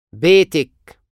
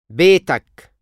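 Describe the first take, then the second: First: بيتك said betek, ending in -ek; feminine you form. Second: بيتك said betak, ending in -ak; masculine you form. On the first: Teacher drills the feminine form of your house. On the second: Teacher drills the masculine form of your house. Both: Shown as a demonstration.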